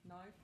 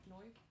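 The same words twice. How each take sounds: First: Said in the usual way. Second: Soft Australian "knife", said "noif"; attempted Aussie vowel in "knife"; Australian accent. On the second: Shown as a demonstration. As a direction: practise an Aussie "knife", I turned to oi. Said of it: "Their I's kinda sounds like O's".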